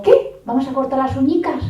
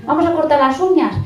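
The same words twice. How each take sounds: First: High singsong coaxing voice; sweet talk to toddler. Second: Higher, louder "uñas" said plainly without the diminutive; coaxing toddler, standard word. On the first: Mother coaxing her two-year-old, in a high singsong. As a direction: coax a two-year-old into nail cutting. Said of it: "le digo". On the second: Parent correcting the regional word to a toddler, higher and louder. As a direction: coax with "uñas" instead of "uñicas". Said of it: "Lo de uñicas". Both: Retold or imitated.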